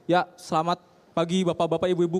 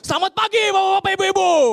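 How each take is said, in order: First: It is said in a calm, ordinary way. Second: It is said loudly like a hype host.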